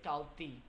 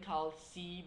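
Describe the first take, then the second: First: The middle consonant is an ejective T sound. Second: The middle consonant is a plain S sound. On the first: The speaker calls it right. "you're supposed to say Kalti" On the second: The speaker calls it wrong. "instead of saying Kal C because X sounds like an S in the English language"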